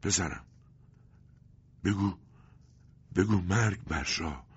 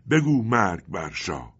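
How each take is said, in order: First: Dying words in slow fragments; broken, halting speech. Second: Loud, slow, raised angry urging; trembling with anger. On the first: Dying father urges his son, halting broken words. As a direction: gasp it out with long pauses. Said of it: "بریده بریده گفت". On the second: Stranger hugging the orphaned boy urges him, angry and loud. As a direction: urge it out in slow fury. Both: A narrator's reading.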